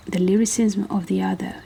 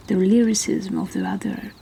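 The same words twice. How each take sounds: The two takes are said the same way.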